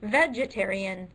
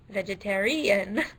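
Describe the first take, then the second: First: The stress is on the first syllable. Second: The stress is on the fourth syllable. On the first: "the first syllable"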